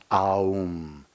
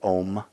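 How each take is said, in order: First: The vowel glides from A through U. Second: The vowel is one plain O sound. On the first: The speaker calls it right. "It's pronounced Aum. A, U, M" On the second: The speaker calls it wrong. "a lot of people say Om, but it's not pronounced that way"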